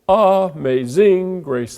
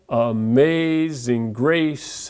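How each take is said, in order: First: The beat falls on every first syllable. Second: The beat falls on every second syllable. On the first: The speaker calls it wrong. "So on the first syllable" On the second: The speaker calls it right. "if I put the emphasis on the second syllable"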